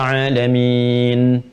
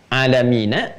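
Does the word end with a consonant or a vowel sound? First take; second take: consonant; vowel. First: The word ends on the consonant n. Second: The word ends with an added vowel a. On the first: The reciter stops here. "ketika berhenti mati" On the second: The reading continues into the next word. "ada harakatnya a"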